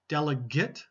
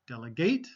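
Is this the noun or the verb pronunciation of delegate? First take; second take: noun; verb. First: It is said with the noun pronunciation. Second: It is said with the verb pronunciation. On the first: A person who represents others. "Delegate, noun" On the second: To hand out jobs to others. "Delegate, verb"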